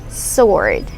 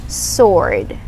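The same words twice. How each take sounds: Both takes have the same delivery.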